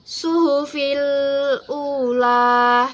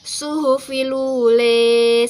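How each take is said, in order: First: The last vowel is an open 'a' sound. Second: The last vowel is tilted toward an 'e' sound.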